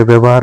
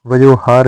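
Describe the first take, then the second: First: व्यवहार said vyav-haar; correct vyav- opening. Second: वयोहार said va-yo-haar; wrong vayo- opening. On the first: Teacher giving learners the correction, व्यवहार as vyav-haar. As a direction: say व्यवहार with a v before h. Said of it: "वयोहार नहीं होता है". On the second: Teacher showing learners the mistake, वयोहार with va-yo. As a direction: say वयोहार with an o before h. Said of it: "व्यवहार होता है". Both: Shown as a demonstration.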